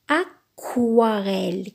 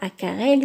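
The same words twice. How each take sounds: First: The middle syllable starts with a kw sound. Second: The middle syllable starts with a plain k sound. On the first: The speaker calls it right. "mais aquarelle. Quoi?" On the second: The speaker calls it wrong. "c'est pas aquarelle"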